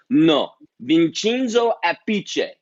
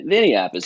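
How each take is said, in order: First: Loud, slow, higher Italian correction; Italian manager's accent. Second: Said in the usual way. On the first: Retold or imitated. Italian manager correcting the drummer's name, in an Italian accent. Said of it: "He's like". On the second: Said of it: "I say, you know".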